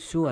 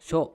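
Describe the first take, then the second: First: The syllable ends with an 'u' vowel. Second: The syllable ends with an 'o' vowel. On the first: The speaker calls it wrong. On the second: The speaker calls it right.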